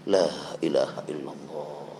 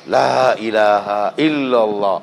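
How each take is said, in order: First: It is said softly and quietly. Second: It is said loudly, as in unison. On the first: It shows humble, fearful remembrance. The speaker calls it right. "penuh rasa takut sehingga kau harus pelan-pelan" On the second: It shows a group chanting together aloud. The speaker calls it wrong. "kalau harus sama-sama pasti harus digedein"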